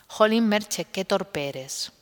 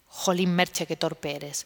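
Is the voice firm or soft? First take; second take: firm; soft. First: It is said aloud in a firm voice. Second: It is said softly, as inner speech.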